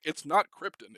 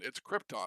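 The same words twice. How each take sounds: First: Krypton with a weak "-tən" ending, loud; "Krypton" with a swallowed second vowel; correcting a mispronunciation. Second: Krypton with a full "-tahn" ending; open, clear second vowel in "Krypton"; corrected pronunciation. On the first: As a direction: quote the wrong KRIP-tən for "Krypton", higher and louder. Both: Retold or imitated. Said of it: "Richard Donner corrected him multiple times".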